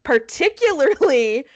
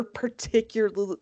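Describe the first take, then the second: First: "Particularly" said out in full, every syllable placed; careful retake. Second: "particularly" stumbled over and slurred at the end; fumbled word. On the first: Podcaster trying the word again, "Particularly" carefully pronounced. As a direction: carefully get through all of "Particularly". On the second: Podcaster botching a word mid-story, "particularly" fumbled. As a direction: trip on the last syllables of "particularly". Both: Real, not acted. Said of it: "Let's try that again".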